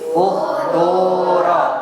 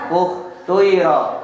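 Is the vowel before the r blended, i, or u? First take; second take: u; blended. First: The vowel before r is a pure u. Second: The vowel before r blends u into i. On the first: "Yang kedua dibaca doma" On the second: "Yang ketiga dibaca isma"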